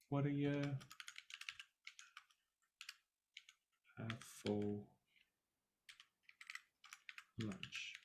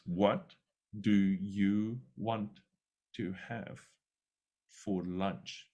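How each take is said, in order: First: The words are reduced and run together. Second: Each word is said clearly and separately. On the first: "This is more the way we would say" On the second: "the students are expecting to hear it like this"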